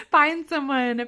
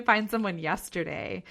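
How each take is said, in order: First: Higher and louder, laughing as she says "find someone"; laughing urge. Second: Said in the usual way. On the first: Real, not acted. Host urging listeners to find an advisor, laughing.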